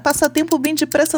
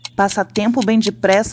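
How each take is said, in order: First: The line is read at a faster pace. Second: The line is read at a slower pace.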